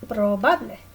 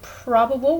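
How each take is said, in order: First: It is pronounced with Spanish sounds. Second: It is pronounced with English sounds. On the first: "they don't change the spelling, just the way that you say them" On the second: "probable would be"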